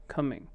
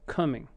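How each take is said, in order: First: The first vowel is a reduced 'uh' sound. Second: The first vowel is a reduced 'uh' sound.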